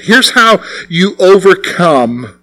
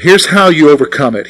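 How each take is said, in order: First: Slowed down, every word weighed; slow, deliberate preacher emphasis. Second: Said in the usual way. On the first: Shown as a demonstration. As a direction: lean into it slowly for weight. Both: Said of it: "This is so important".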